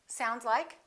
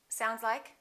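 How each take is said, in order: The two takes are said the same way.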